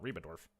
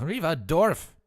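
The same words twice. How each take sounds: First: "Reba Dorf" with a clear b, quiet; correct Reba. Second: "Reba Dorf" slipped into "Reva Dorf" with a v. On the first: Shown as a demonstration. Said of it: "not Reba Dorf". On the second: Acted. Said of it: "That was Reva Dorf, not Reba Dorf".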